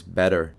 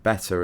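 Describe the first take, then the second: First: "better" with the T softened to a D. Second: Said in the usual way. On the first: Shown as a demonstration. Expert notes the prince's changed speech, "better" with D for T. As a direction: say "better" American-style, like "bedder". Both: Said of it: "changing the pronunciation of T to D".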